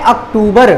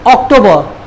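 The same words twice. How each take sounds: First: अक्टूबर said as "ak-too-bar", final r sounded; Hindi pronunciation. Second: अक्टूबर said as "ok-to-buh", final r dropped; English pronunciation. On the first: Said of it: "Hindi में बोलते हैं". (अक्टूबर का हिंदी उच्चारण, "अक्-टू-बर") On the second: English name before the Hindi one. (अक्टूबर का अंग्रेज़ी उच्चारण, "ऑक्टोबर") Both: Shown as a demonstration.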